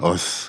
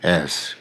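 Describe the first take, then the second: First: The word is said weakly with a reduced vowel. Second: The word is said strongly with a full vowel. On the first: No special emphasis is needed. "특별한 강조를 할 필요가 없을 때는 us 이렇게 발음하고" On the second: The word is being emphasized. "좀 강하게 발음할 때는 as 이렇게 발음을"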